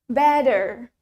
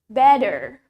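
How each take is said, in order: First: It is said in an American accent. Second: The same.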